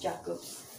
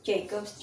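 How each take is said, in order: First: Jacobs said the Filipino way, JA-kobs, softer; Tagalog pronunciation. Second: Jacobs said the English way, JAY-kobs; English pronunciation. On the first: Vlogger settling on the brand name, Filipino JA-kobs. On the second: Vlogger trying the brand name, English JAY-kobs. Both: Shown as a demonstration.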